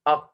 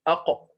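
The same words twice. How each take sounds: First: The final q stops flat with no echo. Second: The final q ends with a brief bouncing echo. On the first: The speaker calls it wrong. "This pronunciation is not correct" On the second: The speaker calls it right. "This vibration of the sound"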